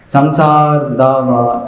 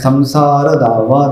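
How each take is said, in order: First: The final vowel after r is dropped. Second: The final vowel after r is pronounced. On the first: The speaker calls it wrong. "संसार दावा ऐसा नहीं बोलना है।" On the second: The speaker calls it right. "संसार नहीं पढ़ना है"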